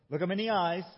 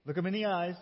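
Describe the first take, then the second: No difference in how they are said.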